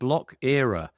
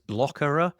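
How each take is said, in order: First: It is said as two separate words. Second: It is said as one blended word. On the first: This is the name as it is written. "It's called Block Era" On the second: This is how the speaker would say it. "I would probably pronounce it as Blockera"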